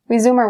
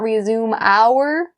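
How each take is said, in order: First: The final sound is linked into the next word. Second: The two words are said separately, not linked. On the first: The speaker calls it right. "most people would say resume. Resume our work" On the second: The speaker calls it wrong. "It's not resume our, even though that is technically correct"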